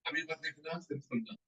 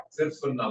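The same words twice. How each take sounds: First: Much softer, almost under the breath; quiet aside. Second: Said in the usual way. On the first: Real, not acted. Teacher softly telling students to just listen, quiet. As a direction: drop the voice to settle them.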